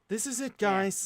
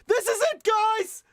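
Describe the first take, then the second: First: It is said at a normal, calm volume. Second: It is yelled loudly with high energy.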